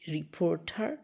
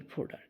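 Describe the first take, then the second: First: The middle consonant is a clear T sound. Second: The middle consonant sounds like a soft D. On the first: "ঠি উচ্চারণ করতে পারি" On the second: "ডি উচ্চারণ করতে পারি"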